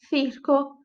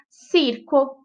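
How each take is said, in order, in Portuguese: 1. O primeiro som tem a língua entre os dentes. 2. O primeiro som é um S sibilante. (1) "Mas na Espanha é"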